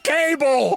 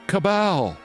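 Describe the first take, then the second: First: It sounds like the word cable. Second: It sounds like ka-BAL, stressed at the end. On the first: The speaker calls it wrong. "She thinks the word cabal is pronounced cable" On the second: The speaker calls it right. "C A B A L, cabal"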